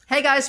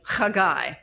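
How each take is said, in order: First: It is said with an English pronunciation. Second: It is said with a Hebrew pronunciation.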